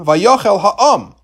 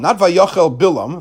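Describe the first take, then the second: First: Vayochel Ha'am spoken very slowly, Ha'am weighted; slow it right down and lean on Ha'am; stress on Ha'am. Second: Said in the usual way. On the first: Shown as a demonstration.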